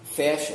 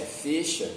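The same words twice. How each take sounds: First: "Fecha" with an open e, fÉcha; fecha aberto. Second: "fecha" with a closed e, fêcha; fecha fechado. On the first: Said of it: "Eu falo pra você". ("Fecha" com é aberto) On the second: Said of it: "mas tem quem diga". ("fecha" com ê fechado) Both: Shown as a demonstration.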